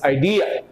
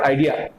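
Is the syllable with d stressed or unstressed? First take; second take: stressed; unstressed. First: The syllable with d is stressed. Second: The syllable with d is not stressed. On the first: The speaker calls it right. "the letter D is to be stressed here" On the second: The speaker calls it wrong. "It's not idea"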